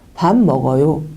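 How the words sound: The pitch falls on the final syllable. It is a statement. "이렇게 내리죠"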